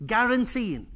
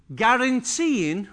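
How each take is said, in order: First: Said in the usual way. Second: Slow stressed guaranteeing. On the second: Shown as a demonstration. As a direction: stretch out "guaranteeing" slowly, rising.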